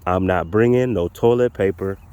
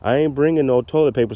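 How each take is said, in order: First: It is said very slowly. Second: It is said at a normal pace.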